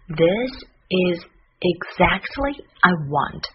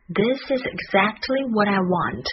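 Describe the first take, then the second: First: Slow, with a pause after each word; word-by-word model. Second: Words linked smoothly at natural pace; connected model. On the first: Teacher closing the lesson with the key sentence, slow and separated. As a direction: separate the words carefully for learners. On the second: Teacher repeating the key sentence for learners, fluent and connected. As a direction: run the sentence together in one flow. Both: Shown as a demonstration.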